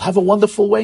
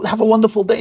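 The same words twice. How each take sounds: First: Mock dismissive send-off that slips into "way" instead of "day"; slip of the tongue. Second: Said in the usual way. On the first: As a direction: say "Have a wonderful way" with "way" where "day" belongs, as a slip. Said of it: "the worst thing the father does".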